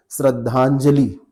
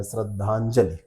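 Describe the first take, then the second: First: श्रद्धांजलि drawn out, long final ई; common mispronunciation. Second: श्रद्धांजलि with a short final इ; correct short vowel. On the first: Teacher showing what people say, mispronunciation demo. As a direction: slowly end श्रद्धांजलि in a long ee. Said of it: "लोग क्या बोलते हैं?". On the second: Teacher showing the corrected compound, pronunciation demo. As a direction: let श्रद्धांजलि end on a brief i. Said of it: "ऐसे हो जाएगा". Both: Shown as a demonstration.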